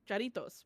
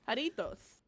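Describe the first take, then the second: First: The word begins with a J sound. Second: The word begins with an H sound. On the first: This follows an American reading. "I think Jaritos would sound better" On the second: This follows the Spanish reading. "technically the J sound is an H"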